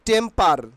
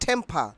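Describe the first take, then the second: First: The first t is plain, without a puff of air. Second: The first t is aspirated, with a puff of air. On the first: The speaker calls it wrong. "Not টেম্পার" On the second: The speaker calls it right. "ছয়কারে ঠে, মো, পয়াকারে পা"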